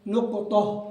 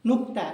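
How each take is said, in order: First: The consonant bounces and the ending is exaggerated. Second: The word is said plainly, without an exaggerated bounce. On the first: The speaker calls it wrong. "कलकला करो, नुकतोह, ये भी सही नहीं है" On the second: The speaker calls it right. "नुक्ता बोले"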